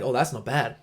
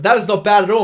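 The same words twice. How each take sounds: First: Said in the usual way. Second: Much higher and louder, leaning hard into it; emphatic approval. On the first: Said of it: "he's like". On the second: Retold or imitated. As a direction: sell it like the mate really means it. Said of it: "He said".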